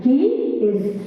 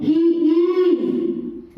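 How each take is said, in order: First: Said in the usual way. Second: He is with IS stretched out long; wrongly stressed auxiliary. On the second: Shown as a demonstration. Teacher showing what not to say, He is with a held IS. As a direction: drag out the word IS in He is. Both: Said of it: "We don't say that".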